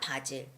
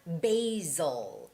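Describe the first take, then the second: First: The word has a Korean pronunciation. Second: The word has an English pronunciation. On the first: The speaker calls it wrong. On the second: The speaker calls it right.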